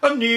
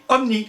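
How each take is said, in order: First: It is said ventriloquist-style, with lips kept still. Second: It is said in a normal open voice.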